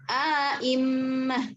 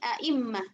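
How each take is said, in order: First: Second glottal stop full, long vowel inserted before. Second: Second glottal stop full, no vowel inserted before. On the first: "tahqiq hamzah yang kedua dengan idghal" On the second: "tahqiq hamzah yang kedua tanpa idghal"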